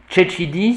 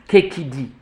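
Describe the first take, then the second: First: The c sounds are softened, not hard k. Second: The c sounds are pronounced as hard k. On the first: This is the later popular usage. "c'est une prononciation populaire" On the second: This is how the Romans said it. "la prononciation du temps des Romains"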